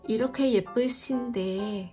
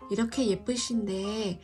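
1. Âm s trong 신 là s nhẹ, bình thường. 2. Âm s trong 신 nghe giống sh. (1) "giờ đọc thành là 이렇게 예쁘신데 là nghe thấy sai sai rồi" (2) "chữ Y là phải đọc thành âm sờ nặng nha"

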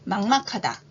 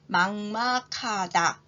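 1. 이 단어는 보통 속도로 발음했어요. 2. 이 단어는 천천히 발음했어요. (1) "보통 속도로 해볼까요?" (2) "천천히 두 번 발음할게요"

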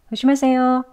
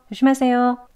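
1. 첫 자음이 약하고 거의 발음되지 않아요. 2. 첫 자음이 약하고 거의 발음되지 않아요.

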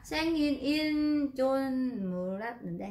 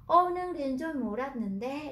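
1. Cụm từ được tách ra, có ngắt nghỉ giữa các phần. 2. Cụm từ chảy thành một khối, không ngắt nghỉ. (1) "chúng ta không nói là ... cách nghe như thế này dài quá" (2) "chúng ta nói liền luôn"

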